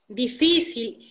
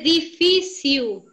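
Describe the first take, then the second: First: The word has a Spanish-sounding pronunciation. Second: The word has a Portuguese-sounding pronunciation. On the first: The speaker calls it right. "Seria difícil" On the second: The speaker calls it wrong. "usas bastante portugués"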